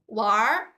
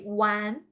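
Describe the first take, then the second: First: It ends with an r sound, Beijing style. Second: It ends without an r sound, southern style.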